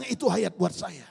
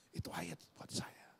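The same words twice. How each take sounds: First: Said in the usual way. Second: Softly whispered repeat, no voice. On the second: Retold or imitated. Pastor recalling the verse, whispered to himself. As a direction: breathe the words to yourself in awe. Repeats his own realisation.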